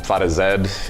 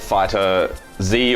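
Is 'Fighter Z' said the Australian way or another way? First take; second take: Australian; non-Australian. First: It is said in an Australian English way. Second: It is said in a non-Australian English way.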